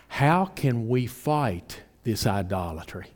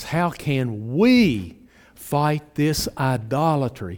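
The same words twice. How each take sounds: First: Said in the usual way. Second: "we" stretched out long and punched; slow right down and lean hard on "we"; emphatic question. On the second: Shown as a demonstration. Preacher emphasizing the fight against idolatry, slow stress on "we". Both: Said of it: "And I really emphasize".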